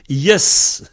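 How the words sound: The word is cut to its shortest possible form. This is how the speaker's home dialect says it. "chez moi, on dit yes. Peut pas faire plus court"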